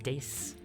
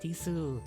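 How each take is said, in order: First: The final u vowel is dropped. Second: The final u vowel is pronounced. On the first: The speaker calls it right. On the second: The speaker calls it wrong.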